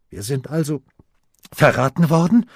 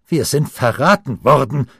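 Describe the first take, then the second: First: A stubborn, disbelieving question; insisting. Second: A mildly shaken, raised exclamation; trembling voice. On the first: Harald insists to his uncle, asking stubbornly. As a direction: press the question, rising sharply at the end. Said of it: "beharrte Harald". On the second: Harald tells his uncle they were betrayed, voice trembling. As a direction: cry it out, voice quivering a little. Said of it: "rief Harald mit bebender Stimme". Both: A narrator's reading.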